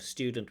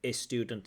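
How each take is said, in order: First: The word begins directly with the s sound. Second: An extra vowel sound comes before the s. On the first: The speaker calls it right. "instead of student" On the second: The speaker calls it wrong. "repeated mistakes"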